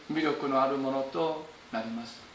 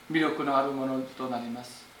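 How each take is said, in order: The two takes are said the same way.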